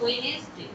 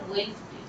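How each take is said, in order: First: The word is said with three syllables. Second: The word is said with two syllables. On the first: The speaker calls it wrong. "এখন অনেকেই বলে আমার ওয়েনেসডে" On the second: The speaker calls it right. "আসলে কিন্তু এটা ওয়েনসডে"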